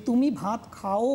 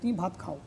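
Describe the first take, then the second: First: খাও drawn out as kha-O, o fully sounded; over-full vowel. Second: খাও as one short syllable, o gliding; lower, quick, খাও with a half-sounded o; half vowel. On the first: Teacher showing what we never say, full vowel. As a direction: end on খাও split into two full vowels. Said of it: "আমরা কখনোই বলি না". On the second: Teacher showing the everyday form, half vowel. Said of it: "ওটা অর্ধরূপে উচ্চারিত হচ্ছে". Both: Shown as a demonstration.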